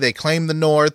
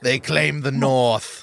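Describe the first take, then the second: First: It is said in his plain normal voice. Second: It is said with a put-on accent.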